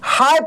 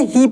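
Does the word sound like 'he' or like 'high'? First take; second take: high; he. First: The vowel is a gliding 'eye' sound. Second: The vowel is a long 'ee' sound. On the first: The speaker calls it right. "इसको हम लोग पढ़ेंगे हाय।" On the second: The speaker calls it wrong. "ये गलत है, इसको ही नहीं पढ़ेंगे।"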